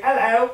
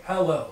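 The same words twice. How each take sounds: First: "hello," with the H dropped, pitched up. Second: "hello" with a clear breathy H at the start; H pronounced. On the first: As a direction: say "hello," without the H, English style. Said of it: "So we don't say". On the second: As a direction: sound the H in "hello", lower and falling. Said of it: "with the H". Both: Shown as a demonstration.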